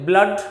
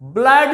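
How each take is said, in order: First: The vowel is the short 'uh' sound. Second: The vowel is not the short 'uh' sound. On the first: The speaker calls it right. "अ sound" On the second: The speaker calls it wrong. "ब्लड नहीं कहेंगे"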